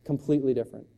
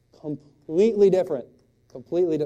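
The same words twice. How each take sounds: First: Said in the usual way. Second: Higher and much louder, hammered; big emphatic punch on different; emphatic punchline. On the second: Shown as a demonstration. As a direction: land the contrast hard. Repeated punchline, hammered home.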